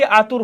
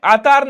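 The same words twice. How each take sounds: First: आतुर with short u before r; correct form. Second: आतार with a long aa in the second syllable; wrong spelling form. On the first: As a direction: say आतुर, second syllable tu, not taa. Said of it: "आतुर होता है". (आतुर, दूसरे अक्षर में छोटा उ) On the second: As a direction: say आतार, long aa before the final r. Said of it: "नहीं होता है बच्चे, आतुर होता है". (आतार, दूसरे अक्षर में लंबा आ) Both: Shown as a demonstration.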